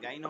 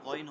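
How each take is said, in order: First: The first vowel is a long open 'aa'. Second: The first vowel is a short rounded 'o'. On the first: The speaker calls it wrong. "গাইন হবে না" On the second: The speaker calls it right. "গইন হবে"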